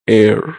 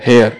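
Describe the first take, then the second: First: It begins with a vowel, no h sound. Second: It begins with an h sound. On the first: The speaker calls it right. "पर English में pronunciation होता है एयर" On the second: The speaker calls it wrong. "English में अगर कोई पढ़े तो इसको पढ़ेगा हेयर"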